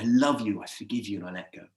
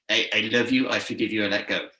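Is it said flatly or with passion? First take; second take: with passion; flatly. First: It is said with strong passion and meaning. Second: It is said hesitantly, without passion.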